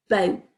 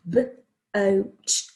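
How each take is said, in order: First: Said in the usual way. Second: BOAT split into b, long o, t; sounded out. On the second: Shown as a demonstration. Teacher spelling boat for the class, sounded out. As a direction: pull BOAT apart sound by sound. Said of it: "Is that O sound?".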